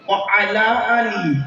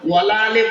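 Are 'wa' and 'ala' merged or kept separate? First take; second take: separate; merged. First: 'Wa' and 'ala' are said as separate words. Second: 'Wa' and 'ala' run together as 'wala'. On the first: It means 'and upon the family'. The speaker calls it right. "এটা কি?" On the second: It carries a negative meaning. The speaker calls it wrong. "ওয়ালা আলে বলবেন না।"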